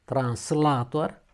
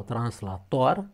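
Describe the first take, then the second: First: Translator slow, with LA stressed and long. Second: Translator slow, ending on stressed TOR. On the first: Teacher contrasts two words, translator stressed on A. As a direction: stretch the second A of translator. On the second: Teacher contrasts two words, translator stressed on O. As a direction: lean on the final syllable of translator. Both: Shown as a demonstration. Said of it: "deci sunt două cuvinte diferite".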